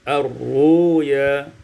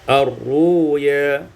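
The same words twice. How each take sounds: No difference in how they are said.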